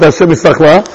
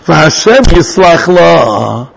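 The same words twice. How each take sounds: First: Said in the usual way. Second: Very slow, stretched verse quotation; drawn-out recitation. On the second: Shown as a demonstration. Reciting the verse under discussion.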